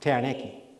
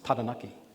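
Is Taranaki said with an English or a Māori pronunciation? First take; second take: English; Māori. First: It is said with an English-style pronunciation. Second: It is said with a Māori pronunciation. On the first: The speaker calls it wrong. "you were saying Taranaki" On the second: The speaker calls it right. "it's Taranaki"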